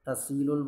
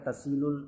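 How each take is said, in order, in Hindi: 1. बीच की h आवाज़ छोड़ दी जाती है। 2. बीच की h आवाज़ छोड़ दी जाती है।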